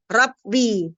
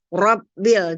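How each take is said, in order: First: The r is flat and sounds light. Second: The r is pressed and sounds heavy. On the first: The speaker calls it wrong. "Jangan Rabbi" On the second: The speaker calls it right. "ro-nya ditekan ya, di apa dilentingkan ke atas ya, supaya dia terdengar Rabbil"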